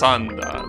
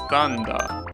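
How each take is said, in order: First: The word begins with an s sound. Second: The word begins with a th sound. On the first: The speaker calls it right. "actually it's Sanda. They, they will pronounce it like that" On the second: The speaker calls it wrong. "Thunder in Japanese is Thanda"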